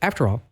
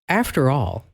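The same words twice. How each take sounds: First: It is said flatly, without expression. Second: It is said with lively, meaningful expression. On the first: The speaker is just reading words. The speaker calls it wrong. "instead of" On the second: The speaker means what they say. The speaker calls it right. "talk like you mean it. Like"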